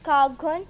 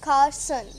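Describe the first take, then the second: First: The middle consonant is a hard g. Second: The middle consonant is an s sound. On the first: The speaker calls it wrong. "You must be thinking it's Cargon. No" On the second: The speaker calls it right. "dis essent is changed to sound son, so we pronounced it Carson"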